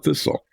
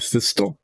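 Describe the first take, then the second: First: The T is silent. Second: The T is pronounced. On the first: The speaker calls it right. "it's a thistle. The T is silent" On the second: The speaker calls it wrong. "Is it a thistle? No"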